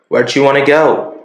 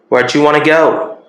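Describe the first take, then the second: First: 'Want to' is reduced to 'wanna', American style. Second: 'Want to' is reduced to 'wanna', American style.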